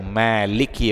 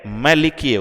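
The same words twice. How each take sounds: First: The first vowel is drawn out long. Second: The first vowel is kept short. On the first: The one who owns and rules. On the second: The king.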